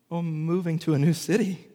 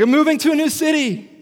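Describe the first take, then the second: First: Said in the usual way. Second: High, loud, thrilled exclaim; squealing with excitement; excited announcement. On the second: Retold or imitated. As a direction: gush the big news.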